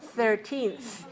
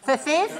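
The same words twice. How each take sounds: First: A plain t sound is made in the middle. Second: A th sound is made in the middle. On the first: The speaker calls it right. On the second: The speaker calls it wrong.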